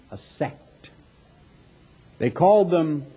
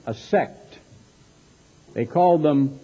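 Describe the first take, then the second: No difference in how they are said.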